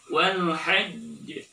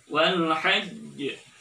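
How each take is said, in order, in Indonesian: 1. Konsonan terakhir ditahan sebelum dilepaskan. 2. Konsonan terakhir ditahan sebelum dilepaskan.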